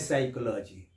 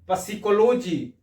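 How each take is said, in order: First: The word begins with an s sound. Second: The word begins with a sounded p. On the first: This is how the word is actually read. "आप पढ़ते हैं साइकोलॉजी" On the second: This is how the word is written. "लिखते हैं पसिकोलॉजी"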